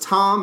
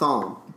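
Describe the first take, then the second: First: The name begins with a plain T sound. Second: The name begins with a TH sound. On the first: The speaker calls it right. "So it's Thom, Silent H" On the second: The speaker calls it wrong. "not Thom"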